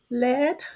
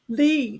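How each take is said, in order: First: The vowel is short, as in bed. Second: The vowel is long, as in feed. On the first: It names the material in a pencil. "rhymes with bed" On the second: It means to guide people somewhere. "it rhymes with feed"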